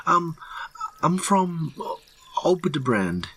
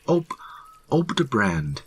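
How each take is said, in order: First: High, halting answer with pauses; falter, then drop on the place name; nervous mutter. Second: Stammered start, then higher-pitched answer; raised voice. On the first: Terrified hiker naming his home, high nervous mutter. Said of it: "the man mutters". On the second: Terrified hiker repeating his home, raised voice. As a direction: push the place name out, frightened. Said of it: "raising his voice". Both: A narrator's reading.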